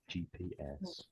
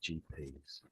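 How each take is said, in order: First: The final S is spoken as a letter name. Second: The final S is spoken as a plural ending. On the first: The speaker calls it wrong. "I think you read it out as G P S" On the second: The speaker calls it right. "We'd say it as G Ps. ... So it's like the plural"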